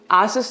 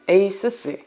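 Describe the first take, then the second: First: It starts with 'ah' and ends 'soos'. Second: It starts with 'ay' and ends 'soos'. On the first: The speaker calls it wrong. "아수스 아니고" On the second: The speaker calls it right. "에이수스입니다"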